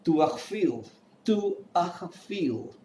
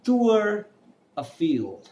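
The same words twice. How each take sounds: First: "Tour Eiffel" with a throaty kh for the r; native French accent. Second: Slow "Tour Eiffel", high then dropping; neutral French pronunciation. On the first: Teacher showing how natives name the tower, native accent. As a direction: rasp the r in "Tour Eiffel", "too-akh-feel". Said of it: "want to sound like a native speaker". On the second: Teacher modelling the name for learners, neutral pronunciation. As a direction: stretch "Tour", pause, then "Eiffel" as "a-FEEL". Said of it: "I'm saying tour". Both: Shown as a demonstration.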